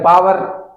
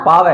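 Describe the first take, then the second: First: पावर as 'paa-var', R heard; rising पावर with sounded R; R-sounded version. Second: पावर as 'paa-ve', no R; corrected R-less पावर; British R-dropping. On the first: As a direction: keep the R ending पावर. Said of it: "ये बोलते हैं पावर". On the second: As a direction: drop the R ending पावर. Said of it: "मतलब पावर". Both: Shown as a demonstration.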